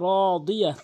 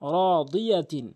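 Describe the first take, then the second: First: The word ends with a vowel. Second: The word ends with a tin sound. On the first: The reading stops on this word. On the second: The reading continues without stopping.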